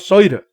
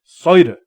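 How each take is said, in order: First: The word begins with an S sound. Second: The same.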